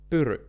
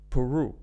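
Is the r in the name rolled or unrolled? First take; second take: rolled; unrolled. First: The r is rolled with full mouth movement. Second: The r is soft, not rolled. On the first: The speaker calls it right. "in the Finnish way, my name is Pyry" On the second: The speaker calls it wrong. "the way that most people pronounce it is Peru"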